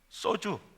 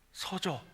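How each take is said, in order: First: The word ends with an oo sound. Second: The word ends with an o sound. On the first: The speaker calls it wrong. "내가 발음을 잘못했어요" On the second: The speaker calls it right. "동조가 아니고 소조"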